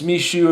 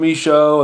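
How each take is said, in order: First: The last syllable sounds like 'shoe'. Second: The last syllable sounds like 'show'. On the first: "my shoe on my foot" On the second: "the television show"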